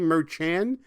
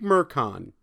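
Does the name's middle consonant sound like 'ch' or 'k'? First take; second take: ch; k. First: The middle consonant sounds like ch in church. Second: The middle consonant sounds like a hard k. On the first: The speaker calls it wrong. "I realized that I mispronounced the judge's name" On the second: The speaker calls it right. "think Merchan"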